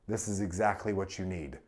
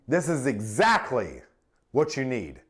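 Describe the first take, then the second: First: It is said flat, in a monotone. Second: It is said confidently, with strategic emphasis. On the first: The speaker seems disinterested or condescending. The speaker calls it wrong. "flat and monotone" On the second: The speaker seems caring and authoritative. The speaker calls it right. "Strategic emphasis. It sounds confident, caring, and authoritative"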